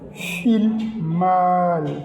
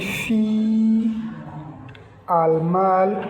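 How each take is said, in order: First: The two words are joined without a break. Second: The two words are said separately with a break. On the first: The speaker calls it right. "c'est comme si on fait la liaison directement. On dit fil mal" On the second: The speaker calls it wrong. "Au lieu de dire fi, al mal"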